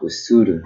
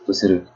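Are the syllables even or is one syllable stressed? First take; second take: stressed; even. First: One syllable is stressed more than the others. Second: All syllables are even, with no stress. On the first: The speaker calls it wrong. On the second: The speaker calls it right.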